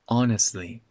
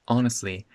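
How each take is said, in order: First: The T sound is dropped. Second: The same.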